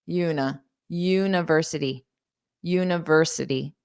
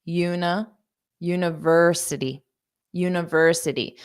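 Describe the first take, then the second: No difference in how they are said.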